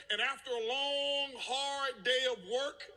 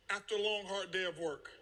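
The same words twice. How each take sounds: First: "long, hard" stretched out high and slow; drawn-out emphasis. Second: Said in the usual way. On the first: Retold or imitated. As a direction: lean on "long" and "hard", rising at "work". Dramatizes his tiring workday.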